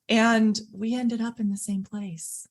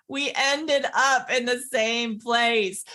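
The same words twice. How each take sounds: First: Said in the usual way. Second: "We ended up in the same place" spelled out slowly, higher; slow emphasis. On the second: Real, not acted. Doctor driving home the friends' shared outcome, "same place" slow and emphatic. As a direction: weigh every word of "ended up in the same place", half speed. Repeats her point for emphasis.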